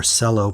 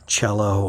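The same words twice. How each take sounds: First: "cello" said with an S, SELL-oh; soft-C pronunciation. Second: "cello" said CHELL-oh; CH pronunciation. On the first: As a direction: start "cello" with an s sound. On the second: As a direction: start "cello" with a ch sound. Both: Shown as a demonstration. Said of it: "not sure which way it's pronounced".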